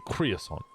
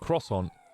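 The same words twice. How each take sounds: First: The word is pronounced in a deliberately odd way. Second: The word is pronounced the ordinary, usual way. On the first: The speaker calls it wrong. "we'd say croissant" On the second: The speaker calls it right. "instead of saying croissant"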